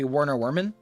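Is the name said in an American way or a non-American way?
American. The name is said with an American pronunciation. "the American way of saying it would be"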